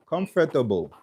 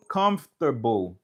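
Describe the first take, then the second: First: Comfortable in four syllables, British way; British pronunciation. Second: Comfortable in three syllables, "cumf-ter-bowl"; American pronunciation. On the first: Teacher showing learners the word from England, British pronunciation. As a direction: say comfortable as "cum-fuh-tuh-bowl". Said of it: "gen moun ki soti an Angletè". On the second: Teacher contrasting with British, American pronunciation. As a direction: say comfortable American style, lower, dropping a syllable. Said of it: "But nan angle ameriken". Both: Shown as a demonstration.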